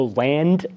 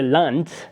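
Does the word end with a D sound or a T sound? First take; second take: D sound; T sound. First: The word ends with a D sound. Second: The word ends with a T sound. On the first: "as in American English" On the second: "pronounced with a T sound at the end"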